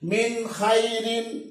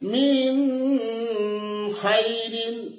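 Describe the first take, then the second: First: The n is clear, with no nasal hum. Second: The n is held with a nasal hum. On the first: The speaker calls it right. "এমনি ভাবে উচ্চারণ করতে হবে" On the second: The speaker calls it wrong. "তোমার পড়াটা ভুল হলো"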